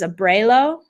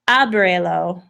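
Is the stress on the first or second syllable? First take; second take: second; first. First: The stress is on the second syllable. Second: The stress is on the first syllable. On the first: It is a different word, not 'open it'. The speaker calls it wrong. "If that accent isn't there" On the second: It means 'open it'. The speaker calls it right. "accent on that A"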